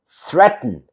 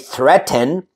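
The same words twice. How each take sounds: First: The vowel between T and N is reduced. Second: The vowel between T and N is full. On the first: The speaker calls it right. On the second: The speaker calls it wrong.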